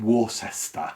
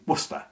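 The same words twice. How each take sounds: First: Every syllable of the word is pronounced fully. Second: The word is shortened, middle syllables contracted. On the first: This is the original or American reading. "instead of saying Worcester" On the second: This is how it came to be said over time. "through the unusual contraction ... it became Worcester"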